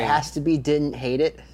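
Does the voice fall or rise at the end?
falls. The voice falls at the end, like a statement. The rating is stated as a verdict.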